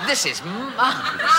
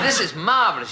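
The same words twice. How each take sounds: First: Much higher, hammed-up cry of delight; marvelous delight. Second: Higher, still excited but calmer repeat; delighted. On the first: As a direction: squeal it out, overjoyed. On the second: Retold or imitated. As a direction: say it again, savouring it. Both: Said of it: "he said".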